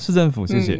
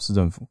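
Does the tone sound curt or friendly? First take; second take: friendly; curt. First: It sounds warm and friendly. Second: It sounds curt and harsh.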